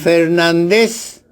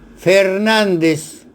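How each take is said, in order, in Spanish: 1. El acento está en la última sílaba. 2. El acento está en la sílaba del medio. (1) "Fernández sin tilde ... Fernández es aguda" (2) "correctamente escrito, con tilde en A de nan ... Fernández es grave"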